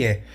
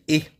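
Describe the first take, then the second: First: "E" as an open French è, like Portuguese é. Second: "E" as a closed French é, like Portuguese ê. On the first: Teacher showing the grave accent sound, open e. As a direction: say "E" wide and open. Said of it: "enquanto o grave vai dar". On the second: Teacher showing the acute accent sound, closed e. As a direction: say "E" narrow and closed. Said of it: "o acento agudo". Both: Shown as a demonstration.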